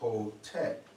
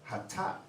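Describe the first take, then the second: First: The vowels are an o and an e. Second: Both vowels are a sounds. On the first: "the people that introduced the vowels put the O and the E" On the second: "replacing the vowels with the A's"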